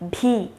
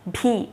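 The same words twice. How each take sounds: The two takes are said the same way.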